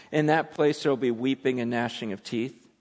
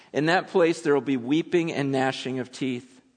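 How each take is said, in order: No difference in how they are said.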